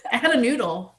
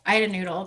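First: Laughing through the line; giggly confession. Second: Said in the usual way. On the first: Real, not acted. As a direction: chuckle it out, amused at yourself. Laughing retelling of childhood mishap.

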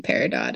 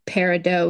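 First: "peridot" with the final T sounded; everyday non-French pronunciation. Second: "peridot" with silent T, ending "doh"; French pronunciation. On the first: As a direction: say "peridot" ending in "dot". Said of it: "is everyone else". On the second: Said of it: "would be the French pronunciation". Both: Shown as a demonstration.

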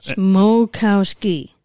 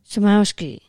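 First: "Smokowski" said slowly, smo-kow-ski, each part apart; "Smokowski" stretched out, smo like s'mores, kow like cow; syllable by syllable. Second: "Samowski" said as "sa-MOW-ski", without the s'mores sound; "Samowski" with a plain sa at the start; wrong pronunciation. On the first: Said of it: "And then ski, like you go skiing". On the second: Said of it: "No, like the s'mores that you eat". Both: Shown as a demonstration.

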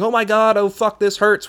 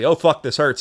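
First: Mock yell. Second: Said in the usual way. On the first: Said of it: "what I was yelling the first time quite loudly". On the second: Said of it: "which was what I was yelling".

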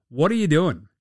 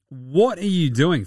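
First: Said in the usual way. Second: Slowed down, leaning on What; slower emphatic repeat. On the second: Real, not acted. Host asks the Pistons again, slower and emphatic. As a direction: drag it out in disbelief.

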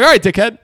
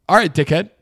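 First: Called out loud and sharp, pitched up; loud retort. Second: Said in the usual way. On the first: Retold or imitated. To the dickhead who bumped him, a loud call. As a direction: say it loud to the rude guy. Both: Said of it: "And I say it loud".

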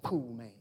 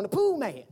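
First: Pool Man said low and soft, flat and dismissive; unimpressed husband. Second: The Pool Man said with eager, lightly raised pitch; imitating the wife's eager announcement of The Pool Man; excited wife. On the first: Retold or imitated. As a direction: mutter Pool Man like you couldn't care less. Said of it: "I be like". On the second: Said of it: "She's like".

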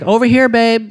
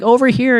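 First: Lightly voiced call of "Over here, babe"; higher mock call to a husband; imitating wife's call. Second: Higher lightly voiced "Over here"; mock call across the store; imitating wife's call. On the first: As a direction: call out like a wife in the store. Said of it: "she literally is like". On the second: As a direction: call out like the ringtone. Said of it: "and she's like".

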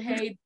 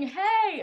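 First: Said in the usual way. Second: High, loud call for attention; yelled call. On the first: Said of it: "the person who yelled". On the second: Retold or imitated. Family member calling another at home, yelled. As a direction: yell it out across the house. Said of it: "There's a lot of yelling".

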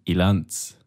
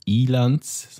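First: Ilanz stressed on LANZ; short I, weight on the end of Ilanz; stress on last syllable. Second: Ilanz stressed on the opening I; stress on first syllable. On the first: Giving the supposedly right form, Ilanz with end stress. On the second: Correcting non-Romansh speakers, Ilanz with stress up front. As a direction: lengthen and lean on the I of Ilanz. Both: Shown as a demonstration. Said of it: "die Betonung ist wieder hinten".

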